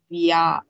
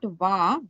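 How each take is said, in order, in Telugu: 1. అచ్చుకు ముందు v తర్వాత y glide వస్తుంది. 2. v నేరుగా అచ్చులోకి వెళ్తుంది. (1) "V Y A" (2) "It's not Va"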